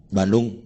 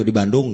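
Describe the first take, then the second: First: Low, curt one-word reply; a grudging mumble of a town name; sullen curt answer. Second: Lower, reluctant repeat of the answer; a mild sulky echo; grudging repeat. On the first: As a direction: answer like you don't want to talk. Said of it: "misalnya gitu ngomongnya". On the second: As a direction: say it like the topic annoys you. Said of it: "Udah kayak gitu". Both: Retold or imitated.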